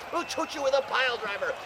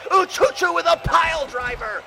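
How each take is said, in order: First: Said in the usual way. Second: Big shouted pile driver call. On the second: Acted. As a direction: yell it out to the crowd. Play-by-play call, repeated.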